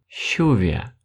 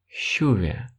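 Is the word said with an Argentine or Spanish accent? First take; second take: Argentine; Argentine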